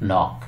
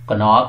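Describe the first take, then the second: First: The word starts directly with the n sound. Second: A k sound is heard before the n. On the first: The speaker calls it right. "N से पहले अगर के होगा तो वो silent होगा" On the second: The speaker calls it wrong. "कनॉक है या नॉक है"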